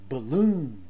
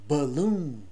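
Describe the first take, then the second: Both takes have the same delivery.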